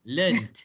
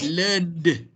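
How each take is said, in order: First: "Learned" ending in T, as "learnt"; T-sound ending. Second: "learned" with a voiced D at the end; wrong D ending. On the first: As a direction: finish "Learned" on a voiceless t. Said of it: "because the N is not sound". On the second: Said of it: "not learned". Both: Shown as a demonstration.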